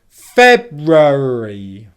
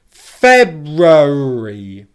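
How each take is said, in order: No difference in how they are said.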